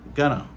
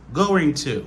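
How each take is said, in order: First: The words are reduced to gonna. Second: Both words are pronounced fully and separately. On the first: This is casual speech. "il n'a pas utilisé going to. Il a utilisé gonna" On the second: This is standard careful speech. "ça, c'est la prononciation normale"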